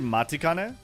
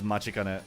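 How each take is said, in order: First: The second syllable is pronounced with a 't' sound. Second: The second syllable is pronounced with a 'ch' sound. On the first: This follows the official spelling. "technically Matikane from the way they spell it" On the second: This is how people actually say it. "But how they say it is Machikane"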